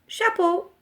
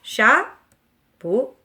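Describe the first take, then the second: First: Said in the usual way. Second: "Chapeau" in two loud beats with a pause between; syllable by syllable. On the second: Shown as a demonstration. Teacher confirms the answer to children, syllable by syllable. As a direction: break "Chapeau" firmly into cha and peau. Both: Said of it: "composé de deux syllabes".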